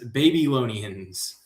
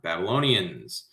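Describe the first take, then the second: First: The first part sounds like the word 'baby'. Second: The first syllable sounds like 'babble'.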